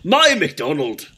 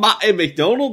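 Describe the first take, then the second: First: A gruff, dwarf-like Scottish accent. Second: A weak, unconvincing Scottish accent. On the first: The speaker calls it right. "I just have to sound like a dwarf" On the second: The speaker calls it wrong. "That's not a Scottish accent"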